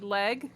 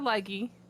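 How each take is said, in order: First: The name is said as one syllable. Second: The name is said as two syllables. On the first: This is how the family pronounces the name. "the family chooses to pronounce it Leg" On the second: This is how a pronunciation guide would give the name. "if you look up a pronunciation guide, it probably says Leggy"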